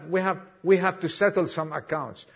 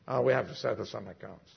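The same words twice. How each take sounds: First: Said in the usual way. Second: Hushed low retake. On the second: Retold or imitated. Jesus repeated, low and hushed.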